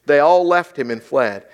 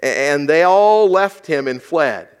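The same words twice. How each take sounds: First: Scripture line again, all held long; stress on all. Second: Slow, weighty reading with stress on all; measured scripture read, slower pace. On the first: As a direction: repeat it and lean on all. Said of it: "That's his disciples". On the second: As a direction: read the verse slowly, leaning on all. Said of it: "Let's look at this". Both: Shown as a demonstration.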